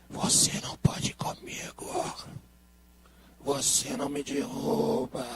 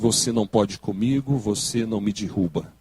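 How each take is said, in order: First: It is said in a deathly, eerie voice. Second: It is said in a plain, normal voice.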